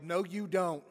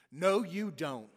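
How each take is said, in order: First: Loud, fast protest No, you don't; yelled. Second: Loud and drawn out, No, you don't stretched slowly; slow yell. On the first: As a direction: shout it out in disbelief. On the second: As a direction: yell it again, slower and heavier. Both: Retold or imitated. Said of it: "And Harry yelled".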